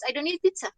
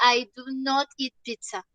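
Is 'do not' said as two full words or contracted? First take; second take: contracted; full. First: Do not is contracted into one syllable. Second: Do not is said as two full words. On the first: A plain, ordinary statement. "Así, simple, con la contracción" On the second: The speaker is insisting or clarifying. "ahí sí utilizamos la forma larga"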